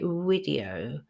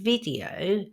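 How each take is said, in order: First: It begins with a rounded w sound. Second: It begins with a buzzing v sound. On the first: The speaker calls it wrong. "replace this sound with a w sound" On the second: The speaker calls it right. "instead of saying video"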